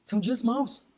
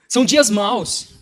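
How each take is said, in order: First: Much softer, sober restatement; quiet repeat. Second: Slow, weighty "São dias maus"; emphatic verdict. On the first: Preacher repeating the warning to himself, quiet and sober. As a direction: let the words drop almost to yourself. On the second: Preacher warning listeners of the times, slow emphatic "São dias maus". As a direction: declare "São dias maus" out slowly, with full voice. Verdict said out, then repeated softly. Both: Real, not acted.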